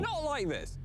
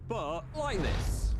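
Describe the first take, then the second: First: Said in the usual way. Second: Like stretched slow and higher; stress on like. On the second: Shown as a demonstration. Phil showing Dan the real way down, slow stress on like. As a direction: drag out the word like.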